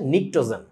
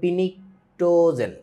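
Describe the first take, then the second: First: The word starts with an n sound, no p. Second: The word starts with a pronounced p sound. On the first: The speaker calls it right. "এখানে পিটা হচ্ছে silent" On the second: The speaker calls it wrong. "ও তো এটা পড়তে যায় বলবে পিনিকটোজেন"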